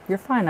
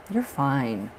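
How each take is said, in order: First: "fine" lifted much higher, light and sing-song; higher reassurance. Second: Said in the usual way. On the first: Real, not acted. Reader reassures a worried viewer again, lifted much higher. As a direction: toss it up brightly, higher.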